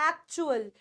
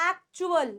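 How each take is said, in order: The two takes are said the same way.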